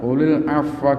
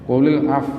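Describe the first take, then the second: First: The final 'wa' syllable is fully voiced. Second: It ends at 'af' with the waw unvoiced. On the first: The reading continues without stopping. "kalau diwasolkan" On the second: The reader stops at this word. "kalau diwakafkan maka hati-hati wawunya jangan dihilangkan"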